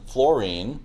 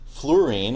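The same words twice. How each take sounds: First: The first part sounds like the word floor. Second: The u and o are sounded as separate vowels. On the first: "rather than fluorine" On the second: "If you pronounce it fluorine"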